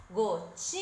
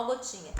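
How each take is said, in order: First: Gotinhas with a long sustained TI; calling out, stretched. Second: Said in the usual way. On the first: Shown as a demonstration. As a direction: hold the TI of gotinhas, almost sung. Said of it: "é o ti". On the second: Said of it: "eu vou chamar assim".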